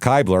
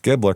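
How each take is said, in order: First: The first syllable does not rhyme with rib. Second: The first syllable rhymes with rib. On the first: The speaker calls it wrong. "I was going to pronounce it Kibler" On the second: The speaker calls it right. "it says ra- rhymes with rib, like Ribbler"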